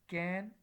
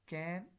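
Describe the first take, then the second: First: The vowel is said in its full form. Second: The same.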